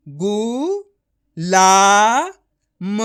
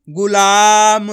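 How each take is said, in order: First: गु, ला, म separated, ला long and loud; each syllable of गु, ला, म held alone. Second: गुलाम joined, with a long loud ला; blended word. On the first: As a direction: sound out गु... ला... म. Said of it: "direct मात्रा का उच्चारण करके". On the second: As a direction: blend it into one drawn-out गुलाम. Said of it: "तो मिलके बन जाएगा". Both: Shown as a demonstration.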